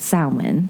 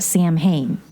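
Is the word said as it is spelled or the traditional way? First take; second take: traditional; as spelled. First: The word follows its traditional Gaelic pronunciation. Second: The word is sounded out letter by letter. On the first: The speaker calls it right. "really called" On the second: The speaker calls it wrong. "if I want to pronounce it how I'm reading it"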